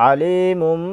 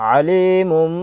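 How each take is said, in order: The two takes are said the same way.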